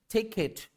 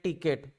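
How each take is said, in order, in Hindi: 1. पहली t महाप्राण है, उसमें साँस का तेज़ झोंका होता है। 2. पहली t अल्पप्राण है, उसमें साँस का झोंका नहीं होता। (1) "Like this you have to pronounce" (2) "They will pronounce like this"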